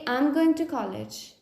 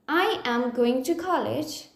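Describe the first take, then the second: First: I am is contracted into one syllable. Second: I am is said as two full words. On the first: "I join I am and pronounce it as I'm" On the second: "if I have to say"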